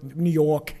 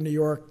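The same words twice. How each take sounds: First: New York accent, "York" as R-less "Yawk". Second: Said in the usual way. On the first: Shown as a demonstration. Preacher mimicking how New Yorkers are singled out, New York accent. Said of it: "they're from New York".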